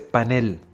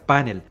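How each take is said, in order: First: The stress is on the last syllable. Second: The stress is on the first syllable. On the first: The speaker calls it right. "es una palabra aguda cuya fuerza de entonación está en la última sílaba" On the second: The speaker calls it wrong. "la pronunciación grave panel"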